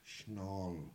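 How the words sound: It is said in the Southern Manx way.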